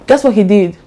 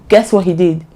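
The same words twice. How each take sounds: The two takes are said the same way.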